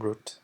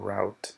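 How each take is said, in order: First: It is said with a British pronunciation. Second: It is said with an American pronunciation. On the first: "normalmente los ingleses dicen root" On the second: "en inglés americano o Estados Unidos lo pronuncian como route"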